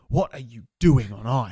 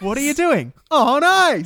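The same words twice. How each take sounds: First: It is said as a plain, serious question. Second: It is said like a showbiz announcer. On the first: It asks why someone is taking drugs. "I never read it like" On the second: It sounds like the title of an ice show. "Did you read it like Toy Story on ice?"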